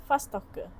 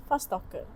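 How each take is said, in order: The two takes are said the same way.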